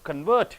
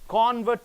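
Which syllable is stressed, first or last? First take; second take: last; first. First: The stress is on the last syllable. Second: The stress is on the first syllable. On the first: It is used as a verb. "last syllable if you stress" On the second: It is used as a noun. "first syllable if you stress"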